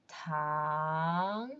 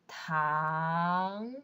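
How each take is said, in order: First: The pitch rises from mid to high. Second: The same.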